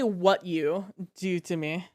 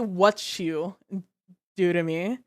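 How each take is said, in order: First: The t and y stay separate, no ch sound. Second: The t and y blend into a ch sound. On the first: The speaker calls it wrong. "you never say" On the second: The speaker calls it right. "you always say"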